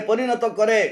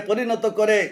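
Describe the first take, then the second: No difference in how they are said.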